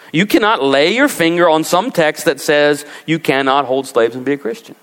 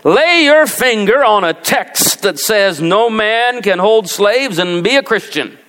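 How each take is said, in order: First: Said in the usual way. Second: Slow, higher mock Southern accent. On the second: Preacher mimicking a pro-slavery pastor, slow Southern accent. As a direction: drawl it like a Southern pulpit preacher. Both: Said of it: "you gotta do it with a southern accent".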